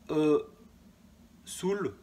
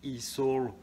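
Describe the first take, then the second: First: The letter E is pronounced the French way. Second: The letter E is pronounced the English way. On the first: The speaker calls it wrong. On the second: The speaker calls it right.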